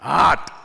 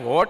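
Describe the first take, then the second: First: The vowel is an open 'aa' sound. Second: The vowel is a rounded 'o' sound. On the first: This is how people say it here. "અહીંના pronounce એવા ને કે હાટ" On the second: This is not how people say it here. "અહીંયા હોટ નથી બોલતા"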